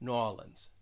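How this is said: It is said in a southern American accent. "with like a southern accent"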